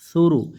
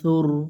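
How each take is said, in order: First: The word ends with a short u vowel. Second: The word ends on the r consonant. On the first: "রপিস রু" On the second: "অক্ফের কারণে এই রপেশটা সাকিন হয়ে যাবে, সার অপেশ সুর এরকম উচ্চারণ আসবে"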